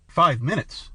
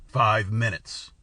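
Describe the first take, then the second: First: A rising cry of alarm; alarmed exclaim. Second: Low and very slow, biting off each word; savage. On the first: The stranger protests at the king's deadline, in mild alarm. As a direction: blurt it out, caught off guard. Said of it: "I exclaimed in incautious alarm". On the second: The king repeats the deadline to the stranger, slow and savage. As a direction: lean on FIVE with slow menace. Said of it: "said the monarch savagely". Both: A narrator's reading.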